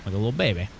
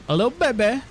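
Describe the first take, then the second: First: Said in the usual way. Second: Put-on much higher, cooing baby voice; baby talk coo. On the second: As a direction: coo it like talking to an infant. Cooing over baby figurines.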